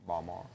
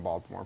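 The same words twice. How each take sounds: First: Soft, low local Baltimore, "Bawl-maw"; Baltimore accent. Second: Said in the usual way. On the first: Shown as a demonstration. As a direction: Baltimore squashed to two syllables, as locals say it. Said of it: "That's how people from Baltimore pronounce". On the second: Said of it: "how people from Baltimore pronounce".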